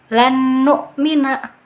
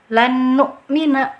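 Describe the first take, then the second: Both takes have the same delivery.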